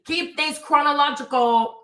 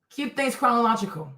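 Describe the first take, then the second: First: "Keep things chronological" drawn out slowly, punching "Keep"; slow emphatic advice. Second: Said in the usual way. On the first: Shown as a demonstration. To a commenter who jumbled the dates, slow and stressed "Keep". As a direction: lean hard on "Keep" and stretch the whole phrase.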